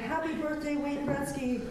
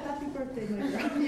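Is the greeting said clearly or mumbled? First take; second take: clearly; mumbled. First: The greeting is said clearly and with energy. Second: The greeting is mumbled quietly and indistinctly. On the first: "my dad would wake up in the morning" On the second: "he'd kind of mumble"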